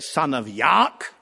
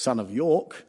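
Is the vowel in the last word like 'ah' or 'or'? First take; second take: ah; or. First: The last word has an 'ah' vowel. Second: The last word has an 'or' vowel. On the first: This imitates an actor's idiosyncratic pronunciation. "he said "son of Yark"" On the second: This is the standard pronunciation. "instead of "son of York.""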